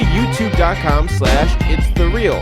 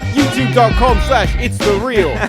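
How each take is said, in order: First: It is said in the speaker's usual accent. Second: It is said in a put-on British accent.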